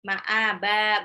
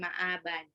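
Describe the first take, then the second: First: The word ends with a lengthened vowel. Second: The word ends with an n sound. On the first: The speaker calls it right. "ba di belakang mad iwad, jadi ma'aba" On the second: The speaker calls it wrong. "bukan ma'aban"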